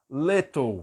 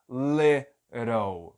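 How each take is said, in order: First: The middle T is a clear, crisp T sound. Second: The middle T is a quick flap, like R. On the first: "Vai pronunciar o T com o som de T" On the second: "Esses dois T's vão ter som de R"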